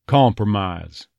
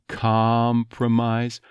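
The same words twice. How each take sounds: First: "compromise" with lightly rounded first vowel, drawn out. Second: "compromise" with a very open ah, slowly; unrounded "compromise". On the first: Coach shows the Texas version, rounded "compromise". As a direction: round the lips on "com" of "compromise". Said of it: "a little bit of rounding to it". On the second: Coach shows what to avoid, open "compromise". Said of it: "Instead of compromise". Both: Shown as a demonstration.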